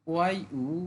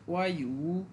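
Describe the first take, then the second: Both takes have the same delivery.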